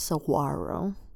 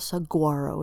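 First: The G is not pronounced as a hard sound. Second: The G is pronounced as a hard sound. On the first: The speaker calls it right. "We don't say the G, the hard G" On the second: The speaker calls it wrong. "It's not saguaro"

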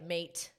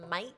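First: The word is said in a plain American accent. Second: The word is said in an Australian accent. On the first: The speaker calls it wrong. "if you just have our accent, it's like mate" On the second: The speaker calls it right. "You got to have mate"

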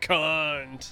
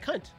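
First: The word is said hard, with strong emphasis. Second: The word is said softly, without emphasis.

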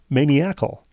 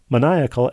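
First: It sounds like maniac followed by al. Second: It is said with its standard pronunciation. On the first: The speaker calls it wrong. "I mispronounced the word maniacal as maniacal" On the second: The speaker calls it right. "the word maniacal"

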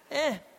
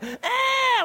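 First: The cry is quiet and weak. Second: The cry is loud and strong.

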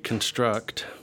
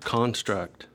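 First: The first-syllable vowel is very short. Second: The first-syllable vowel is fuller and longer. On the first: "the vowel in the first syllable, kun, is very, very short" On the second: "then the vowel is different"

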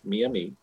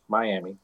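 First: The name is said the tribe's own way. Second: The name is said the English way, my-AM-ee. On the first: This is the tribe's own name for itself. The speaker calls it right. "One is what they call themselves" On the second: This is the English version of the name. The speaker calls it wrong. "One is the mispronunciation in English"

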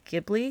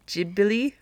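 First: It is said in an Italian-sounding way. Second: It is said in a Japanese-sounding way. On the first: "Because that's more Italian" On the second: "the way that the Japanese spell it and pronounce it, it's more like Ghibli"

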